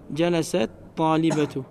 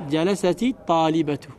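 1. Le premier mot finit par t, sans voyelle ajoutée. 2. Une voyelle i relie le premier mot au second. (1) "c'est un frère qui a dit" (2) "si tu veux faire une liaison, c'est-à-dire une lecture rapide, tu peux dire quoi?"

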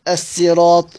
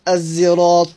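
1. تُنطق الكلمة بصوت السين العادي. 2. تُنطق الكلمة بصوت مزجي شبيه بالزاي. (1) "بالسين" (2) "والإشمام"

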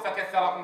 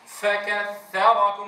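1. صوت الفاء ضعيف يكاد لا يُسمع. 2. صوت الفاء واضح مع نفس مسموع. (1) "ولا أقول" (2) "أتنبه إليها سواء سكنت أو تحركت"

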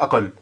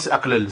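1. Les deux l se fondent en un seul l long. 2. Les deux l sont séparés par une voyelle. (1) "donc tu veux dire quoi?" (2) "Ça se dit pas"

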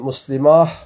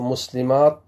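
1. الكلمة تنتهي بصوت الهاء. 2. الكلمة تنتهي بصوت التاء. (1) "وقد وقف بعضهم بالهاء أيضا" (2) "فالأفصح الوقف بالتاء"

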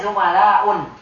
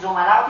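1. Kata itu diakhiri dengan u lalu n. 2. Kata itu diakhiri dengan vokal u biasa. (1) "tidak boleh zumala'un" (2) "zumala'u tidak boleh"

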